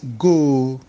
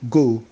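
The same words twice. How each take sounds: First: The vowel is long and drawn out. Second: The vowel is short and clipped. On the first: The speaker calls it right. "you drag it" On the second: The speaker calls it wrong. "It's not just go"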